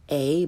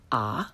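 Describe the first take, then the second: First: "a" as English letter name ay; learner's mispronunciation. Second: "a" as open ah, lower and softer; correct Italian pronunciation. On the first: Teacher shows beginners' mistake, "a" said ay. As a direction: say "a" to rhyme with day. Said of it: "first the way most people". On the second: Teacher corrects beginners, "a" said ah. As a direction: say "a" like father's first vowel. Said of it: "follow it with the correct pronunciation". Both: Shown as a demonstration.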